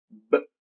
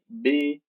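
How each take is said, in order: First: "B" as a short b sound, "buh"; bare phoneme. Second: "B" named as Portuguese "bê"; Portuguese letter name. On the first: Teacher showing pupils the consonant sound, bare phoneme. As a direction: give "B" as a sound, not its name. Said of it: "O fonema". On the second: Teacher naming consonants for pupils, Portuguese letter name. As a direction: say "B" as the letter, with a full vowel. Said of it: "eu pronunciei agora em português". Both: Shown as a demonstration.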